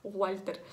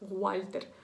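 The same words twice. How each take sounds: No difference in how they are said.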